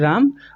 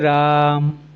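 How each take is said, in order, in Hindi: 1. स्वर की लंबाई सामान्य है। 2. स्वर को तीन गुना देर तक खींचा जाता है। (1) "सामान्य रूप से आप राम कह सकते हैं" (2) "उसका उच्चारण तीन या तीन से अधिक बार कर सकते हैं"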